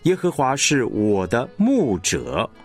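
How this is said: The stress falls on 牧者. "你会听到这个牧者被强化了"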